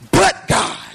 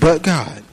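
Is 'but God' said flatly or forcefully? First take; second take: forcefully; flatly. First: It is said loudly, with strong force. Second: It is said flatly, with little force. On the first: The speaker calls it right. "That man said" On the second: The speaker calls it wrong. "I don't believe he said it like that"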